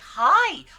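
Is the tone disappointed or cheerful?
cheerful. It sounds bright and cheerful.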